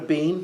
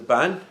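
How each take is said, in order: First: The vowel sounds like a long 'ee'. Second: The vowel sounds like an open 'ah'. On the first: The speaker calls it wrong. "It's not a bean" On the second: The speaker calls it right. "it's a ban"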